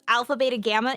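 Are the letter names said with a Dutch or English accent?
English. The names are said with an English accent.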